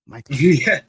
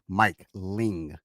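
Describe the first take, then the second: First: The name is said quickly, run into one word. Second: The name is said slowly, two separate words. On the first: The speaker calls it wrong. "I always feel like I'm saying Mikeland" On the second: The speaker calls it right. "I got to say it slowly"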